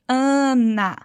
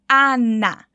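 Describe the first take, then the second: First: The vowels are nasalized as in Portuguese. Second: Both vowels are open with no nasal sound. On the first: The speaker calls it wrong. "desse som nasal que a gente faz no português" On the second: The speaker calls it right. "É como se todos os as dessa palavra tivessem um acentinho e ficassem bem abertos"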